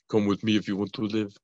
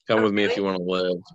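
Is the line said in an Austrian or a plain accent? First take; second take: Austrian; plain. First: It is said in an Austrian accent. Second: It is said in the speaker's plain accent.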